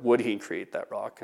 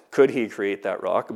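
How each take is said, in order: First: "Would" leaned on, question drawn out slowly; stress on WOULD. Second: "Could" leaned on, question drawn out slowly; stress on COULD. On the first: Teacher offering the better question, stress on "Would". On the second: Teacher rejecting one question for another, stress on "Could". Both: Shown as a demonstration.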